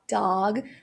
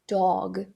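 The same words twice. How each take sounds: First: The vowel is an open 'ah' sound. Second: The vowel is an open rounded 'aw' sound. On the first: "a, a, a" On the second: "com O com acento agudo"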